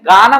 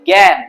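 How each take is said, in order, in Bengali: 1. g-এর পরের স্বরধ্বনিটি একটি খোলা 'a'। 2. g-এর পরের স্বরধ্বনিটি 'e'-এর মতো ধ্বনি। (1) "এখানে গান আমরা বলি না" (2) "আমরা কি বলি? জ্ঞান"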